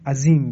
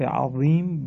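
First: The z-like sound is a plain light z. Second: The z-like sound is heavy and emphatic. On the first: It means a fierce enemy. The speaker calls it wrong. "با زی فارسی تلفظ کنه" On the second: God is great. The speaker calls it right. "این حرف عظیم با وا هست"

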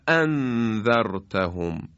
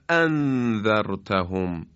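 First: The glottal stop is sharp and forceful. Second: The same.

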